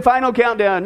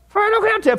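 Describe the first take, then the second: First: Said in the usual way. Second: High-pitched, hammed-up title announcement; theatrical title call. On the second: Shown as a demonstration. Preacher announces the study's name, high and theatrical. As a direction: send the voice way up for the title.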